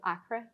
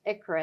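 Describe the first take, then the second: First: Ichra said EYE-kruh; alternative pronunciation. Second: Ichra said ICK-ruh; correct pronunciation. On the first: Host quoting how some people say it, ichra as EYE-kruh. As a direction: say ichra with a long first vowel, like "eye". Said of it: "some people pr-, pronounce it". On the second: Host teaching the actual name, ichra as ICK-ruh. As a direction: say ichra with a short i, as in "icky". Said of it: "it's actually pronounced". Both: Shown as a demonstration.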